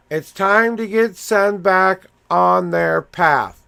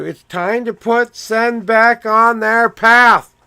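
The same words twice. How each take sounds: First: Said in the usual way. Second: Louder, higher and slow, like a message coming through; intense proclamation. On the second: Real, not acted. Reading Sen's cards aloud, a loud slow proclamation. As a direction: declare it with force, word by word.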